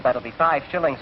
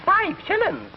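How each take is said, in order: First: Said in the usual way. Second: Very high, incredulous Scots squawk; outraged Scottish accent. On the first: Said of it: "Conductor said". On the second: Acted. Scotsman shocked at the fare, outraged Scottish accent. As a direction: balk at the price in a high Scots voice. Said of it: "And the Scotch says".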